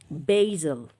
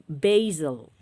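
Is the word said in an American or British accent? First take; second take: American; American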